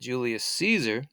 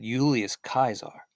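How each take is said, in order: First: Caesar begins with a soft S sound. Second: Caesar begins with a hard K sound. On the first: This is the modern way of saying the name. "we look at Julius Caesar" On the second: This is how the man himself would have said it. "he would have said Julius Kaiser"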